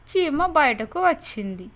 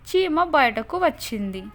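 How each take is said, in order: Both takes have the same delivery.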